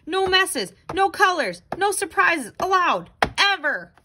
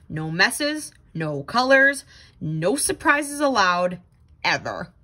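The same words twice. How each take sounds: First: Rules cried out higher in a panic; panicked rules. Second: Firm rule recital, dropping much lower on "ever"; strict rules. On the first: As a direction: chant the rules in alarm. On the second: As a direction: lay down the law like a strict boss. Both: Acted.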